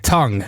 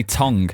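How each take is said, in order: First: "Tongue" as "tung", g left silent; southern-accented "Tongue", silent G; southern pronunciation of TONGUE. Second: "tongue" with a northern vowel, like "tong"; northern-accented "tongue"; northern pronunciation of TONGUE. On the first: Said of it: "how do you say tongue". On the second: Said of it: "because of the way I say tongue". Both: Shown as a demonstration.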